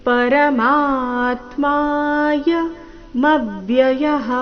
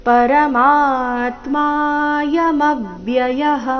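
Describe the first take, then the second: Both takes have the same delivery.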